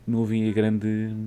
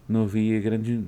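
The two takes are said the same way.

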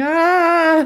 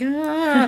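First: High, loud mock cry; bigger, louder imitation TV-movie scream; hammy adult scream. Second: High, held-back imitation cry; small high "ah" of hammy horror; mock TV-movie scream. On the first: Cut to the grown-up self, loud hammy scream. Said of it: "cuts to the adult one going". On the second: Boy in a TV movie, hand on face, small mock scream. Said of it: "It's proper T V movie".

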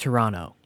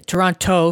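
First: "Toronto" said as tuh-RON-oh; silent second T. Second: "Toronto" with a clear T in the last syllable; second T sounded. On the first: Podcaster teaching outsiders, "Toronto" with no second T. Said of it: "it's pronounced Toronto". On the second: Podcaster spelling out "Toronto" for outsiders, second T sounded. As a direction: say "Toronto" as tor-on-TOE. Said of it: "the T is silent". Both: Shown as a demonstration.

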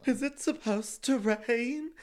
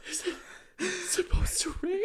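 First: High, slow, exaggerated scared voice; mock a frightened friend, pitched up and drawn out; imitated fearful question. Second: Gasping, high-pitched mock-terrified wail; exaggerated fear. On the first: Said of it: "That's what you sounded like". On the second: Shown as a demonstration. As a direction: gasp first, then squeal it loud in fake tearful panic. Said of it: "there was enough fear in my voice".

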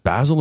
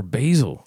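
First: "Basil" as BAZ-ul, short a as in jazz; first-syllable vowel short. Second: "Basil" as BAY-zul, long a as in bay; first-syllable vowel long. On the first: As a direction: say "Basil" to rhyme with dazzle. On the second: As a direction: say "Basil" to rhyme with hazel. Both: Retold or imitated. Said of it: "someone said, "Basil or Basil?".

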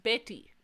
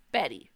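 First: Betty with a crisp Spanish t, "BEH-tee"; Betty with a clear t, not a d; Honduran pronunciation. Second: Betty with a d-like t; Anglo pronunciation. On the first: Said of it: "it's pronounced Betty". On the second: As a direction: say Betty the English way. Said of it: "which we pronounce Betty". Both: Shown as a demonstration.

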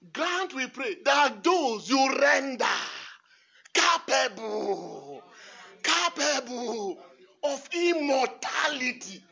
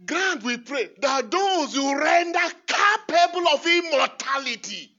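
First: Loud and very slow, stretching capable; slow shouted proclamation. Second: Loud, high ringing proclamation; fervent proclamation. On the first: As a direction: hammer out every word. Shouting the prayer slowly. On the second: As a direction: proclaim it to the church. Proclaiming the prayer. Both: Acted.

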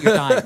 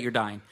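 First: Shouted mock exasperation; loud teasing. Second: Said in the usual way. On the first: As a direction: yell it over him, teasing. Teasing a sick cohost loudly.

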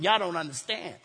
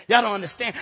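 First: "Y'all" dropped low and soft; hushed aside. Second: Said in the usual way. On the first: Shown as a demonstration. Preacher confiding to the congregation, soft and low. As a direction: pull back and say it under your breath.

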